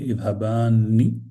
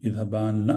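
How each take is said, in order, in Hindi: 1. शब्द का अंत n के बाद i से होता है। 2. शब्द के अंत में अकेली n की आवाज़ है। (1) "बल्कि इذहबानी" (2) "इذहबान नहीं"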